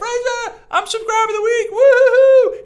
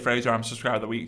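First: It is said in an excited, cheering tone. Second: It is said in a plain, calm tone.

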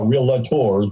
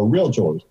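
First: The word is said with three syllables. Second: The word is said with two syllables. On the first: The speaker calls it wrong. "It is not a three-syllable word. We're not realtors" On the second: The speaker calls it right. "realtor is a two-syllable word. We are realtors"

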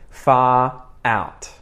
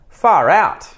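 First: Each word is said separately, without a linking R. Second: The words run together with a linking R. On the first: "I'm going to say them first unlinked or unconnected" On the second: "the same sentence, but connected"

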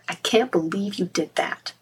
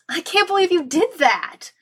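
First: The tone is scolding and disapproving. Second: The tone is admiring and impressed. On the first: The listener should feel ashamed of what they did. "You can make them feel ashamed" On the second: The listener should feel proud of what they did. "Or you can make them proud of themselves"

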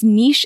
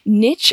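First: The word is said the British way. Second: The word is said the American way. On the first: This is the newer, more British form. "niche is more relatively new and tends to be more kind of that British English" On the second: This is the older, more common American form. "niche has been kind of historically dominated and more common in kind of the American English"

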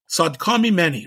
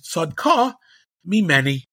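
First: The words run together without a break. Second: There is a break after the first word. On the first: The speaker calls it wrong. "I should say it right, correctly" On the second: The speaker calls it right. "According to Rashi, the pshat is Sadka Mi Meni. She's right. It's mine"

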